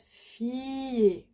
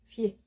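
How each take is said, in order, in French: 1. La voyelle finale est pleine et nettement allongée. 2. La voyelle finale est très brève et légère. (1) "It's not fier, nope" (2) "very small E"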